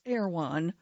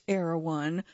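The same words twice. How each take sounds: First: The name is squeezed into two syllables. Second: The name is said with all its syllables. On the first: "in certain surfer dude lilts is reduced to two syllables" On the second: "Pronounced Erewhon"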